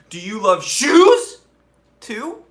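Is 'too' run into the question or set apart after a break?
set apart. The word 'too' comes after a break, separately. The word 'too' is tacked on as an afterthought. "It was like"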